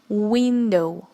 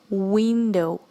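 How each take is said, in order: The two takes are said the same way.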